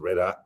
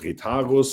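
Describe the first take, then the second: First: The name is said the American way. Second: The name is said the German way. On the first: "in America, most of um, our customers and my colleagues, they pronounce it" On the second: "Me being a German, I call it"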